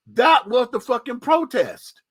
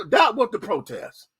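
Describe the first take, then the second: First: That was the fucking protest, slower, That hit hard and falling; drawn-out insistence on That; slow emphatic insistence. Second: Said in the usual way. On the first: Real, not acted. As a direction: hammer That home. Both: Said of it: "repeated for emphasis".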